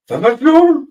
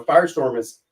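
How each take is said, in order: First: Firestorm shouted high in mock German; German accent. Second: Said in the usual way. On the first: Shown as a demonstration. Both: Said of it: "Yes, I'm butchering it".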